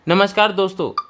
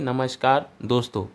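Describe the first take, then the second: First: The phrase is spoken quickly and hurriedly. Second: The phrase is spoken slowly and carefully. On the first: The speaker calls it wrong. "मैंने बहुत fast fast बोला" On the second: The speaker calls it right. "Voice typing हमें ऐसी करनी चाहिए"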